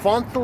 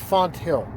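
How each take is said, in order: First: The middle is said as one th sound. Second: The t and h are said as separate sounds. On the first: The speaker calls it right. "It's the th sound" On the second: The speaker calls it wrong. "people think it's pronounced Font Hill, and that's bullshit"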